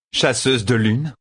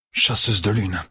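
First: "Chasseuse de lune" repeated higher and slow, savouring it; Lanfear repeating. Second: A lightly voiced growl from Perrine. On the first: Acted. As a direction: roll the name out slowly, amused. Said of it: "répéta Lanfear". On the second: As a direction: growl "Chasseuse de lune" at her. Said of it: "grogna Perrine".

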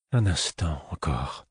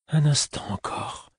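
First: Soft, slowed murmur; reassuring murmur. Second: Higher, slow pleading. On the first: The fool soothing Fitz, soft reassuring murmur. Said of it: "murmura-t-il, comme pour me rassurer". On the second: The fool pleading with Fitz, higher and slow. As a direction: plead urgently, voice lifting. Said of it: "fit-il, suppliant". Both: A narrator's reading.

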